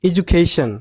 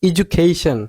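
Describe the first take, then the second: No difference in how they are said.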